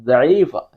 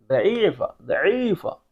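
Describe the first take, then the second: First: Said in the usual way. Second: ज़ईफ़ा said as daeefa, starting with a soft d instead of z; ज़ईफ़ा with a d at the start, like an Arabic teacher; with a d sound. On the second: Shown as a demonstration. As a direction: say ज़ईफ़ा with the Arabic dal, d not z. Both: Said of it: "दाल से इसकी pronunciation लेंगे".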